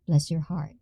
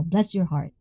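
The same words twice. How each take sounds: First: Softer, lower "Bless your heart", left without a full fall; dismissive walk-away intonation. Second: "Bless your heart" with weight on Bless, falling away; first intonation of "Bless your heart". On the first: Trying the line as a parting remark, quietly dismissive. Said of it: "and then walk away like that". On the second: Trying out how a Southern elder says it, falling intonation. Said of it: "What's the intonation should be?". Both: Shown as a demonstration.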